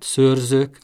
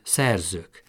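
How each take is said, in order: First: The first vowel is a rounded ö sound. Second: The first vowel is an unrounded e sound. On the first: "a hangsúlyos szótagban is, tehát szőrzők" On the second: "mondhatná azt is, hogy szerzők"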